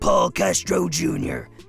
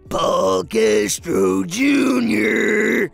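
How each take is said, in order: First: It is said plainly, without character attitude. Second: It is said with an in-character attitude.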